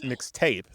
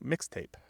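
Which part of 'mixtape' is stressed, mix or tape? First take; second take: tape; mix. First: The stress falls on the second part, tape. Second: The stress falls on the first part, mix. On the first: It is heard as two separate words. The speaker calls it wrong. "people don't say" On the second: It is heard as one word. The speaker calls it right. "they say mixtape"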